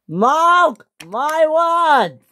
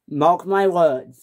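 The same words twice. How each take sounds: First: Slow, high, loud; furious vow. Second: Slow, steady, firm; calm warning. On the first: James vowing revenge, shouting. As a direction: hammer each word, high. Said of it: "James was the maddest engine on Sodor". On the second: Edward calmly warning James. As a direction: lay it down calmly. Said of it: "said Edward". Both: Acted.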